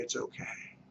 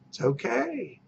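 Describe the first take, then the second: First: It's okay whispered under the breath; whispered reassurance. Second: It's okay voiced softly, falling at the end; soft reassurance. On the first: Agent soothing a worried seller, whispering it's okay. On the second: Agent soothing a worried seller, soft voiced it's okay. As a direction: say It's okay gently, with a small lift. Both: Shown as a demonstration.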